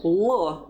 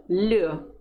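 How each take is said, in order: First: L said hard and dark, "luh"; the mistaken unsoftened L sound. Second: L said palatalised, "lyuh"; drawn-out softened L sound; soft L. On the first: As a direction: demonstrate L with no softening. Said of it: "Instead of L, you say L". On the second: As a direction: demonstrate L softened, tongue to the palate. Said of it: "you say L". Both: Shown as a demonstration.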